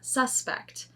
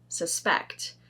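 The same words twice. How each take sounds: First: The stress is on the first syllable. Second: The stress is on the second syllable. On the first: It is the noun. "which is the noun" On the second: It is the verb. "So that's a verb"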